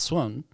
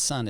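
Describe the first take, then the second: First: It sounds different from the English word sun. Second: It sounds exactly like the English word sun. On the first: The speaker calls it right. "it's Sun" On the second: The speaker calls it wrong. "you really don't say it's sun"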